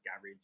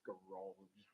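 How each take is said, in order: First: The word has a non-American pronunciation. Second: The word has an American-style pronunciation. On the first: This is how the speaker said it in the past. "I used to call it garage" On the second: This is how the speaker says it now. "now it's garage"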